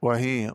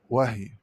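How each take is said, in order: First: Said in the usual way. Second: وهي as "wah-y"; resting h in وهي; unvowelled ha. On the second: Shown as a demonstration. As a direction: close وهي on the h, no i after it. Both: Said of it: "قرأ بإسكان الهاء".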